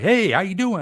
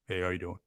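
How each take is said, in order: First: The greeting sounds lively and enthusiastic. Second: The greeting sounds reserved and low-key.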